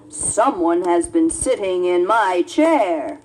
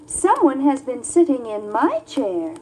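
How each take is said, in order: First: It is said in a great big voice. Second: It is said in a middle-sized voice.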